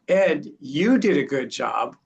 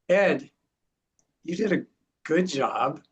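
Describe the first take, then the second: First: The word "you" is strongly stressed. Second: No single word is strongly stressed. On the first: Someone else did the good job. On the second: The praise is for the listener.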